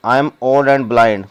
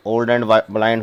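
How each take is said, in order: First: Each word set apart, very slow; slow reading. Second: Said in the usual way. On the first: Shown as a demonstration. Teacher reading the blind mother's line to students, slowly. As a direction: read it out slowly for the class. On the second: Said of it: "teacher repeats the phrase while translating".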